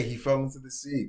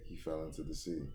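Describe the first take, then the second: First: Higher, louder crew call-out, lightly voiced; crew announcing. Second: Said in the usual way. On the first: Crew member spreads word Ace fell, mild mock call. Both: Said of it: "That's what they're saying".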